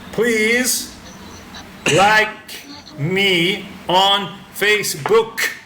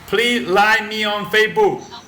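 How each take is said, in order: First: The final consonants of the words are pronounced. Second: The final consonants of the words are dropped. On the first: The speaker calls it right. "It should be" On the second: The speaker calls it wrong. "So they cut off the ending sounds"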